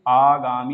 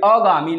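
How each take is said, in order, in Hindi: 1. पहला स्वर दीर्घ है। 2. पहला स्वर ह्रस्व है। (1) "आगामी होना चाहिए।" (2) "यह अगामी लिखा हुआ है, क्या होना चाहिए?"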